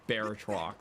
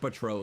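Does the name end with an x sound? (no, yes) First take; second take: yes; no. First: The name ends with a clear x sound. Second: The name ends in a vowel, no x. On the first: The speaker calls it wrong. "I thought it was like Baratrox, because I was just reading it" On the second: The speaker calls it right. "the right way to say it"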